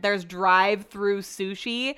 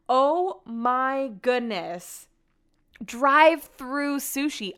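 First: Drive-through said slowly with a rising, disbelieving lilt; surprised question. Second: Very slow, stretched-out disbelief on Drive-through sushi; stunned disbelief. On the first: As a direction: ask about drive-through in slow disbelief. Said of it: "this is where the conversation gets interesting". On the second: Reacting to the sushi photo. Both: Real, not acted.

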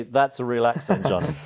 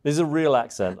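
First: Mock American accent. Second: Said in the usual way. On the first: Shown as a demonstration. British guest teasing his American host, in a mock American accent. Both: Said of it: "Or I might say".

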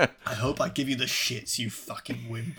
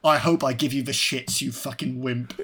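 First: Put-on light Geordie accent, quiet; a hint of Geordie, trailing off. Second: Quoted tough-guy line. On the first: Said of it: "He's this proper Geordie". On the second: Retold or imitated. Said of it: "he has a great line".

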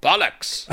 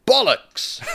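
First: Mock German-accented exclamation; hammed-up German officer accent; heavy German accent. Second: High, falling, emphatic exclamation; crisp, confident declaration; clear, with conviction. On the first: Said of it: "with a heavy accent responded". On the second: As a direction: proclaim BOLLOCKS clearly, pitched high. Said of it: "said clearly and with conviction". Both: A narrator's reading.

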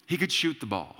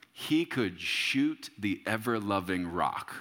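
First: Said in the usual way. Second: Slow and weighty, savoring each word; slow boast about an old shooter; slow emphatic. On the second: Shown as a demonstration. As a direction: draw it out slowly.

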